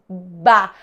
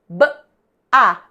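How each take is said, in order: First: The two sounds are blended into one syllable. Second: The two sounds are said separately. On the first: "coarticulo e vou unindo os sons" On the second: "Olha só"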